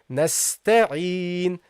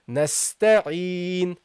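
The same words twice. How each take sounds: The two takes are said the same way.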